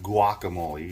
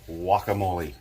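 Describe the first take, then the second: First: The word starts with a hard G sound. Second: The word starts with a W sound. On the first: The speaker calls it wrong. "You don't say it with a G" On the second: The speaker calls it right. "like a W"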